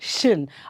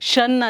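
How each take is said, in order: First: The syllable is said with a vowel like 'shin'. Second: The syllable is said with a vowel like 'shun'. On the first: The speaker calls it right. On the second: The speaker calls it wrong. "ಶನ್ ಅಲ್ಲ"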